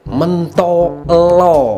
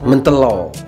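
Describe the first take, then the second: First: The word is said slowly with full vowels. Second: The word is said quickly with a reduced vowel. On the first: The speaker calls it wrong. "bukan mentolo, salah guys" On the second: The speaker calls it right. "kalau kita nyebutnya itu lebih cepat"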